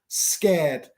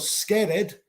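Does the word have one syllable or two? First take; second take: One; Two. First: The ending joins the word without an extra syllable. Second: The ending is said as an extra syllable. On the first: The speaker calls it right. "pronunciar básicamente sin el E" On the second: The speaker calls it wrong. "Así que no pronuncio scared. Scared no existe"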